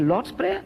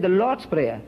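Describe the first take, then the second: First: LORD'S PRAYER echoed higher, rising at the end as a question. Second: Said in the usual way. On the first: Retold or imitated. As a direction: query "Lord's Prayer" with a lifted, rising ending. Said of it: "I said". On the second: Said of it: "he said".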